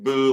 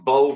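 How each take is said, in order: First: The vowel rhymes with 'too'. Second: The vowel rhymes with 'go'. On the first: "or is it Boo like a ghost?" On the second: "is it like Bo from the Dukes of Hazzard"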